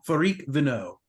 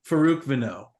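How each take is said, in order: First: The second syllable of the name has a short 'ih'. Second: The second syllable of the name has a long 'oo'. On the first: The speaker calls it wrong. "Did I say Farik?" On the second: The speaker calls it right. "it's definitely Farouk"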